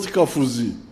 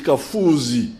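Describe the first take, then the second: First: The 'u' vowel is short. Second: The 'u' vowel is long. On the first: The speaker calls it wrong. "It's not Kafuzi" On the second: The speaker calls it right. "It's a double U"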